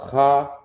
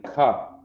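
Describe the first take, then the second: First: "Cha" with a throaty "kh" scrape; contrasted letter sound. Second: "ka" with a clean hard K; contrasted letter sound. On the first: Teacher separating two letters, throaty "khah". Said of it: "don't get the ka mixed up with the cha". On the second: Teacher separating two letters, hard-K "kah". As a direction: start "ka" on a plain K stop. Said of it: "don't get the ka mixed up". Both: Shown as a demonstration.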